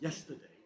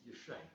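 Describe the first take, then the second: First: The word is said with all its sounds. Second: The word is squeezed into two short syllables.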